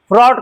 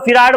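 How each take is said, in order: First: The f and r are joined with no vowel. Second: An extra vowel separates the f and r. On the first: The speaker calls it right. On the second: The speaker calls it wrong.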